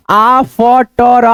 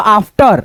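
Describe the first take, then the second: First: "after" split slowly as aa-f-ta-ra; broken into sounds. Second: Said in the usual way. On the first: Shown as a demonstration. Teacher breaks down after for learners, piece by piece. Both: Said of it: "इसको क्या पढ़ेंगे".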